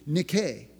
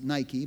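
First: The word has its original Greek pronunciation. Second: The word has its usual English pronunciation. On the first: The speaker calls it right. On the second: The speaker calls it wrong.

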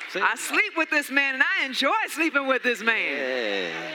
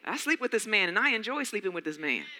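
First: It is said loudly and with force. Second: It is said at a normal, everyday volume.

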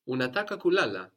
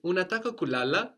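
First: The voice falls at the end. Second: The voice rises at the end. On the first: It is a statement: you want to sleep. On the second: It asks whether you want to sleep.

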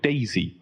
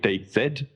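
First: The name ends with the sound 'zee'. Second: The name ends with the sound 'zed'. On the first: The speaker calls it wrong. "the alternative is to call it Daisy" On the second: The speaker calls it right. "so I'm calling it DayZ"

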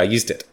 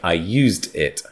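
First: The words run together quickly into 'dit'. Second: The words are said more slowly and separately.

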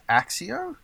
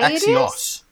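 First: The word ends on a vowel with no s. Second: The word ends with a clear s sound. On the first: The speaker calls it wrong. "Is it pronounced Axio?" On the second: The speaker calls it right. "It's pronounced Axios because it's A-X-I-O-S"

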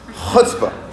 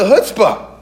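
First: The word starts with a raspy sound from the throat. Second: The word starts with a plain 'ch' sound. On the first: The speaker calls it right. "You got to get to the throat" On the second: The speaker calls it wrong. "I'm not saying it right"

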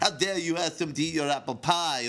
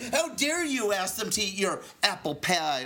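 First: It is spoken in a put-on French accent. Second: It is spoken in the speaker's ordinary accent.

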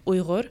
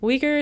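First: The native pronunciation with a throaty gh sound. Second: The common anglicized pronunciation of the name. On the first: The speaker calls it right. "when I pronounce it, it's Uyghur" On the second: The speaker calls it wrong. "Uyghur sounds like a little bit, it's really off"

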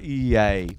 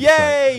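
First: It is said with restrained excitement. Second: It is said with big excitement.

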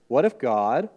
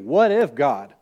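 First: It is read as a plain, neutral question. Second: It is read in a pointed, challenging tone. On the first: It is a simple hypothetical question. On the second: The reader is being told not to question God.

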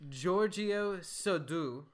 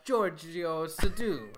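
First: The name is said in a French accent. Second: The name is said in an Italian accent. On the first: The speaker calls it wrong. "That's a French accent" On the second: The speaker calls it right. "So it should have been an Italian accent"

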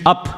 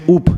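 First: The vowel sounds like 'uh'. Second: The vowel sounds like 'oo'. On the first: "English up comes from upper" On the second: "Scottish people pronounce it correctly. They pronounce it oop"

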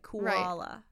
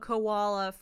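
First: It does not sound like the animal name. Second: It sounds like the animal name koala. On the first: The speaker calls it right. "but like Kuala" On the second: The speaker calls it wrong. "Not koala like a koala from Australia"

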